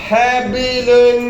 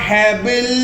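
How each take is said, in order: First: The word ends with an added -un ending. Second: The word ends on a bare final consonant. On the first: The speaker calls it wrong. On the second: The speaker calls it right.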